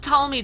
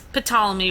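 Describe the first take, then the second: First: The word starts with a T sound. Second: The word starts with a P sound. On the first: The speaker calls it right. "the P is silent" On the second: The speaker calls it wrong. "Ptolemy would be the worst name ever"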